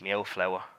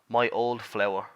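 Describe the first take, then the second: First: The words are run together quickly. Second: The words are said slowly and separately. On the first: "they say it quickly and they say it me owl flower" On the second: "I'll say that slowly and I'll say it in proper English"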